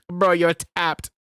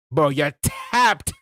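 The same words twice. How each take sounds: First: Mock British accent. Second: Slow drawn-out try. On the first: Trying out new slang again. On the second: Pretend. Trying out new slang.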